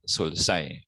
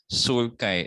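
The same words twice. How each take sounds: First: "sulci" with an s sound, SUL-sai; "sulci" mispronounced as sul-sai; soft C. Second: "sulci" with a k sound, SUL-kai; "sulci" pronounced sul-kai; hard C. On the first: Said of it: "and not sulci". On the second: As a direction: say "sulci" slowly with the c as K. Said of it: "sulci and not sulci". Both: Shown as a demonstration.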